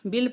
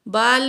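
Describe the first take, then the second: First: The vowel is a short 'i'. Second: The vowel is a long open 'aa'. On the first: The speaker calls it right. "इसको बिल बिल पढ़ेंगे" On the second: The speaker calls it wrong. "बाल नहीं पढ़ना"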